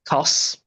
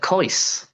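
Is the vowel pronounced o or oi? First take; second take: o; oi. First: The vowel is a plain o sound. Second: The vowel is an oi sound. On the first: "So you could say kos" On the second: "or you could say a kois"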